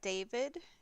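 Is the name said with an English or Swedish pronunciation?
English. The name has an English pronunciation. "I pronounce stuff in English"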